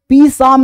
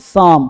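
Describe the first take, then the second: First: A p sound is heard at the start. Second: No p sound is heard at the start. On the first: The speaker calls it wrong. "नहीं" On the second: The speaker calls it right. "N तथा S से पहले पी silent रहता है"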